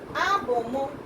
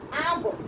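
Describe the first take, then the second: First: The final vowel after m is pronounced. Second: The final vowel after m is dropped.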